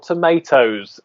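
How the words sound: It is said with an American pronunciation.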